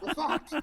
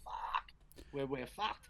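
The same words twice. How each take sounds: First: Much higher, louder, laughing through it. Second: Resigned despair. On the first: Real, not acted. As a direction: crack up while repeating it. Repeating it, laughing. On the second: Retold or imitated.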